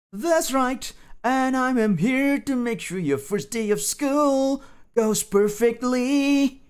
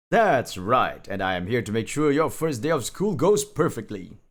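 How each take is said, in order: First: "That's right" very high and drawn out in sing-song; high lilting boast, slowing right down on "perfectly". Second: Said in the usual way. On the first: Acted. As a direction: stretch "school" and "perfectly" high, like chanting. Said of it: "Sing-song tone". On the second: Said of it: "Burnt Reflection said proudly".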